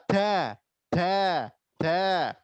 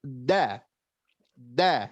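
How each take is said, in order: First: DA with a hissy, leaking d; faulty aspirated da; wrongly hissed d. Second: DA with a firm, pressed d, low pitch; low, firmly stopped da. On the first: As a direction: let air escape through the d of da. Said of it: "mendesiskan pengucapan da". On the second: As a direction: press hard on the d of da, no hiss. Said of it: "Harusnya ditekan". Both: Shown as a demonstration.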